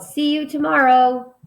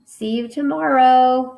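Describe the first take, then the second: First: Higher and louder, called out; teacher hamming up a yell; mock yell. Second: Higher and louder, called out; hammed-up goodbye yell; mock yell. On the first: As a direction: shout a cheerful goodbye. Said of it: "She yelled". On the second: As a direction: call it across the playground. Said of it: "So she yelled".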